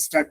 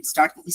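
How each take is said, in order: First: "স্টার্ট" with an i before it, "istart"; common mispronunciation. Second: Said in the usual way. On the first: Shown as a demonstration. Teacher shows a common mistake, "স্টার্ট" mispronounced as "istart". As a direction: add a short i vowel ahead of "স্টার্ট". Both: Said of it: "common pronunciation mistake".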